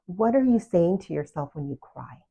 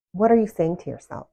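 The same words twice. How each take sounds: First: Said in the usual way. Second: "What are you saying to yourself?" repeated louder, pressing the question; emphatic repeat. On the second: Real, not acted. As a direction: push the question home the second time.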